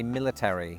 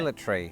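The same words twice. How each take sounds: First: Every letter of the ending is fully pronounced. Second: The ending is clipped, with fewer syllables. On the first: "paying real respect to each of those three letters" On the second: "Instead of"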